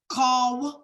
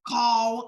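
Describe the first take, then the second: First: The word stops right after the 'w'. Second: The same.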